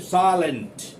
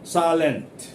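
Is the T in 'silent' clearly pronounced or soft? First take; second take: clear; clear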